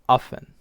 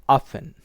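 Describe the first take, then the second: First: The t sound in the middle is dropped. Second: The same.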